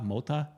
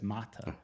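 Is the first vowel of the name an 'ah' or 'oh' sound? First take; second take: oh; ah. First: The first vowel sounds like 'oh'. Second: The first vowel sounds like 'ah'. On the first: The speaker calls it wrong. "I would say Mota Mota" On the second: The speaker calls it right. "but she said it's Mata"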